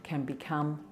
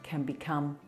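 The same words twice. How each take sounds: No difference in how they are said.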